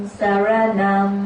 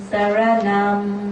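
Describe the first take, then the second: No difference in how they are said.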